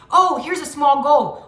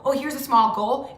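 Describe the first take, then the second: First: Slow, upbeat, louder spotting of a goal; excited discovery. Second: Said in the usual way. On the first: Shown as a demonstration. Coaching viewers, spotting a small goal with mild delight. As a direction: greet each small goal like a happy find. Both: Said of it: "let's start thinking about them as small goals".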